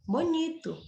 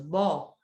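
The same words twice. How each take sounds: First: Said in the usual way. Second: "Bonito" in three separated syllables; teacher counting the pieces of "Bonito". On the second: Shown as a demonstration. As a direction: pause after each syllable of "Bonito". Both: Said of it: "Três sílabas".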